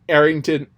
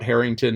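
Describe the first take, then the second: First: It begins directly with the vowel, no H. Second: It begins with a clear breathy H sound. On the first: The speaker calls it wrong. "it didn't have the puh, the huh, you know, the hard H" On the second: The speaker calls it right. "All three voiced H's"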